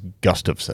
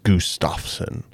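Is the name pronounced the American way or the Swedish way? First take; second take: American; Swedish. First: The name is pronounced with American sounds. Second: The name is pronounced with Swedish sounds. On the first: "the American way, the Montana way" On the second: "the actual like Swedish pronunciation is Gustafsson"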